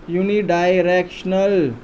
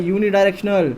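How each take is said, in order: First: unidirectional stretched out part by part; "yu-ni-daai-rek-shnal", each part held long; slow, drawn out. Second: Said in the usual way. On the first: Shown as a demonstration. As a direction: spell out unidirectional slowly for a class. Teacher repeats key term slowly.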